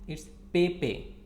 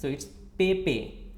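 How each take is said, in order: The two takes are said the same way.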